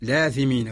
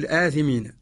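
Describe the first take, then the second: First: The article runs straight into the vowel, no stop. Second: A glottal stop is heard after the article. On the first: "وإذا قرأناها بورش نقول لاثمين" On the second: "إذا قرأناها برواية قالون أو عاصم نقول الآثمين"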